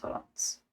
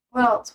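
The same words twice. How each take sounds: First: Unvoiced whisper. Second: Said in the usual way. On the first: Real, not acted. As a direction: whisper it to yourself.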